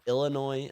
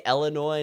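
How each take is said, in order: First: Illinois said "ILL-uh-noy"; first vowel as "ih". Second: Illinois said "ELL-uh-noy"; first vowel as "eh". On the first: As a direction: open Illinois with a short "ill" sound. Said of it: "not Illinois". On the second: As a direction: open Illinois with an "el" sound. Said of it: "I say Illinois, not Illinois". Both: Shown as a demonstration.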